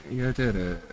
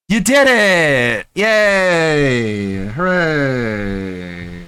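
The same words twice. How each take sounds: First: Said in the usual way. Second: Sarcastic cheering. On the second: Acted. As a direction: cheer him on with fake enthusiasm. Sarcastic mock celebration.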